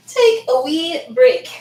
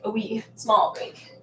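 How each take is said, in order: First: "take" drawn out louder and higher; slow playful stress. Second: "wee small" said slower and softer; quietly clarify "a wee small break". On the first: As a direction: say "take a wee break" slowly with weight on "take". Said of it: "Not a wee break, a wee small break". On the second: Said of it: "Not a wee break". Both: Real, not acted.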